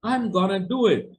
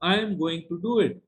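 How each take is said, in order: First: The words are contracted and slurred together. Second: Every word is said fully and separately. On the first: The speaker is being very informal. "this is in a very informal atmosphere" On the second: The speaker is being formal. "You must use the full form"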